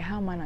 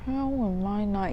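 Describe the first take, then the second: First: It is said in a plain, flat way. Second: It is said with strained, exasperated intensity. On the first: The speaker calls it wrong. "you don't just say" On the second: The speaker calls it right. "you say it like that"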